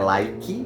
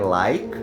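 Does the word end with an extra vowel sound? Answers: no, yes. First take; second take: yes; no. First: The word ends with an added vowel sound. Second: The word ends cleanly on the k sound. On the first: The speaker calls it wrong. "porque ele não é like" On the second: The speaker calls it right. "ele é like"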